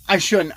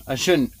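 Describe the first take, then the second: First: Conceding his own smoking, with more weight; emphatic repeat. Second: Said in the usual way. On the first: Real, not acted. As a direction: press the second I shouldn't. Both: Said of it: "I know. I shouldn't be doing it".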